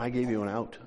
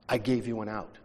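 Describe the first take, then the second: First: "gave" weighted, soft; stress on gave. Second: "I" weighted, soft; stress on I. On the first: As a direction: press "gave" quietly. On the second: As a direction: press "I" quietly. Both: Retold or imitated. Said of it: "And God's going".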